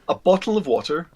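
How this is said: It is said in a neutral international accent. "international neutral, or what I call international received pronunciation"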